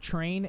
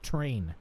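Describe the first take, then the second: First: It starts with a ch sound. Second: It starts with a plain t sound. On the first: The speaker calls it wrong. "T R is not train" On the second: The speaker calls it right. "it's train"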